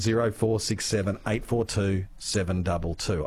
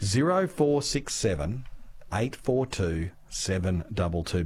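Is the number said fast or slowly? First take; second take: fast; slowly. First: The number is said quickly. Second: The number is said slowly.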